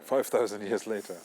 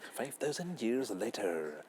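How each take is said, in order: First: It is said in his normal voice. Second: It is said in a SpongeBob narrator voice.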